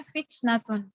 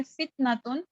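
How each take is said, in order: First: फित्नतुन with a slight puff of air after the first T; clear T. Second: फित्नतुन with the T stopped dead, no puff of air; unclear T. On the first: Teacher reading it for clarity, फित्नतुन with a lightly released T. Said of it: "इसकी clearance के लिए हम इसको पढ़ते हैं". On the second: Teacher showing learners the unclear reading, फित्नतुन with a muffled T. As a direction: say फित्नतुन with an unreleased T. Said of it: "तो इसकी sound clear नहीं होगी". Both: Shown as a demonstration.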